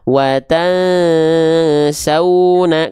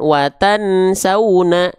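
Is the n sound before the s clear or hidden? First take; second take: hidden; clear. First: The n sound is hidden and nasalized before s. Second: The n sound is pronounced clearly before s. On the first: The speaker calls it right. "kok bunyiannya kayak nggak kedengeran" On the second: The speaker calls it wrong. "bukan watan sauna"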